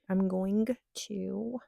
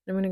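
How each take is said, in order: First: The phrase is said in full as "going to". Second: The phrase is shortened to "gonna".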